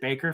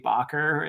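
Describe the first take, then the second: First: The name sounds like the English word baker. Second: The name is said with a Dutch-style middle sound. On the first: This is how the author himself says it. The speaker calls it wrong. "he pronounces it Baker for some reason" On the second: This is how the spelling suggests it should sound. The speaker calls it right. "it should be Bacher. It looks like a Dutch name to me"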